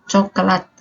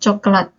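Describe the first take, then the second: First: The word is said slowly and fully. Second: The word is said quickly. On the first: "kata baku ini kan coklat" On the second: "kita percepat"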